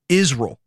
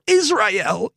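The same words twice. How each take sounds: First: The word is reduced to 'Izrul'. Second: The word is not reduced to 'Izrul'. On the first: The speaker calls it right. "You say Israel. Okay. I-Z-R-U-L" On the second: The speaker calls it wrong. "You don't say Israel or Israel"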